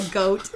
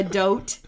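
First: Said in the usual way. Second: "dote", goat starting with d; assimilation. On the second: Shown as a demonstration. Showing how kids say goat, "dote". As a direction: front the g to d in "dote". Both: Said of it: "they call a goat a dote".

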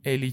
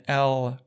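First: الی with a clear l as in Elnaz; light Persian L. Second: ال with a dark English l; wrong English-style L. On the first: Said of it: "مثل همون الناز توی فارسی". (الی با لام نازک فارسی) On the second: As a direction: say ال as in English, l pulled back. (ال با تلفظ انگلیسی) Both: Shown as a demonstration.

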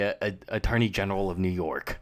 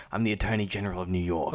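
First: Said in the usual way. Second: A hint of a New York accent on Attorney General; lightly put-on New York accent, as Giamatti. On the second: Host imitates Giamatti playing New York's attorney general, New York accent. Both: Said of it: "he puts on, like, a New York accent".

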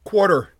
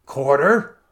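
First: High, loud cry for mercy; gasped plea. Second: Loud, rising outraged question; frenzied disbelief. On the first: Wounded lord begging the stranger, gasped plea. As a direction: cry out the word desperately. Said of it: "he gasped". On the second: Stranger refusing his enemy mercy, frenzied question. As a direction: throw the word back, pitch climbing. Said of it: "There was a quiver of frenzy in the stranger's voice". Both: A narrator's reading.

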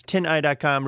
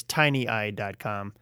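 First: "tin eye" said as two words, tin then eye; right name said. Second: "tiny eye" said as the word tiny, TY-nee eye; wrong name said. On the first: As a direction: separate tin and eye clearly. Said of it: "it's tin eye dot com". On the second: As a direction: run it together as "tiny eye dot com". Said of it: "I always wanna say is tiny eye dot com". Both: Shown as a demonstration.

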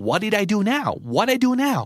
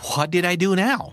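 First: High, exasperated what did I do now; accused friend protesting, exasperated. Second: Exasperated. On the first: Shown as a demonstration. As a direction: whine it in mock disbelief. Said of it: "กูไปทำอะไรให้อีกล่ะ". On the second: Acted. Acted exasperated reply.

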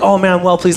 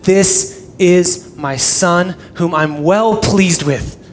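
First: Offhand "well pleased" at ordinary pace; casual approval. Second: "this is my son", slow, each phrase weighted; emphatic declaration. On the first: Shown as a demonstration. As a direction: toss it off as mild, casual approval. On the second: Acted. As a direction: slowly spell out "well pleased" as a solemn declaration. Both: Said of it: "That's not like".

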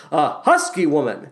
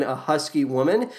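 First: Dry deadpan, stress on husky; lightly imitating a dry deadpan delivery; David Hyde Pierce impression. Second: Said in the usual way. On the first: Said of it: "He essentially says it as". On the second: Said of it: "I love how David Hyde Pierce delivers the line".

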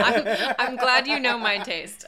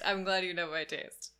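First: Laughing through the words; said with a real laugh, louder. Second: Said in the usual way. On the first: Real, not acted. Laughing reply to friend's teasing.

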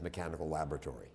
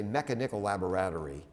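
First: Mechanical laboratory as me-KAN-ical LAB-ra-tory; accent KAN in mechanical and LAB in laboratory; correct stress. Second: Mechanical laboratory as MEK-a-NIK-al la-bo-RAT-ory; misplaced stress. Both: Shown as a demonstration. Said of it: "you have to memorize the accent".

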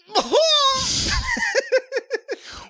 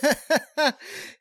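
First: Big fake laugh. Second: Short courtesy chuckle; a polite little laugh. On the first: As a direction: overdo the laugh on purpose. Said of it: "let me try again". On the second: Real, not acted. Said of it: "That was a courtesy laugh".

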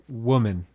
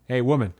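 First: Kind "woman". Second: Dismissive "hey woman". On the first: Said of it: "being very kind to who she is". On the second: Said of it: "It's not like". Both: Shown as a demonstration.

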